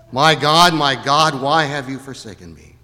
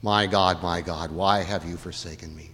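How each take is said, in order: First: Louder cry to God, easing at the end; haunting cry, raised. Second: Low, soft anguished prayer; subdued, desolate lament; haunting cry, hushed. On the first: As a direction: call it out from the cross, then let it sink. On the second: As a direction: quote the cry from the cross low and fading. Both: Acted. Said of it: "his chilling and haunting cry from the cross".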